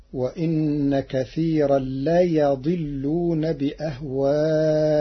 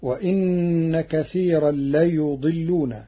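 First: ليضلون said la-yaḍillun, fatha on ya; slow recitation with a on the ya; Warsh reading. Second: ليضلون said la-yuḍillun, u after ya; slow recitation, u on ليضلون; Hafs reading. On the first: Teacher gives Warsh's fatha reading. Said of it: "بفتح الياء". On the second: Teacher recites before Warsh's variant. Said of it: "قرأ ورش كلمة". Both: Shown as a demonstration.

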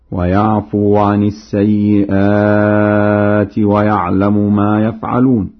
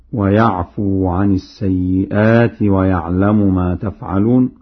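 First: Slow chant with ya opening "يفعلون"; Warsh recitation. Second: Said in the usual way. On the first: Shown as a demonstration. Teacher demonstrates Warsh's reading, chanted with ya in "يفعلون". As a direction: recite "يفعلون" with initial ya, drawing out long vowels. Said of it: "بياء الغيبة هكذا".

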